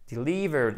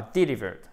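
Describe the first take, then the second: First: "delivered" stressed on the second syllable, LI; bonne prononciation. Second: "delivered" wrongly stressed on the first syllable; mauvaise prononciation. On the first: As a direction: put the weight on LI in "delivered". (« delivered » accentué sur LI) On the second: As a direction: misplace the stress of "delivered" onto DE. (« delivered » accentué à tort au début) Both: Shown as a demonstration. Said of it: "et non pas delivered".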